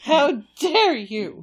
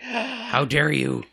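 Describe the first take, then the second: First: Slow, louder wounded pet; offended dog voice. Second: Slow, loud indignant dog; offended dog voice. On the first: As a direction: draw it out, wounded. Voicing the dog again. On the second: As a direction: draw it out like a wronged pet. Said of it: "so he's gonna be like". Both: Retold or imitated.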